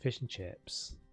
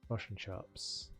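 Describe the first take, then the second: First: It is said in an Australian accent. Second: It is said in a New Zealand accent. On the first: "Australia will" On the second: "a Kiwi will say"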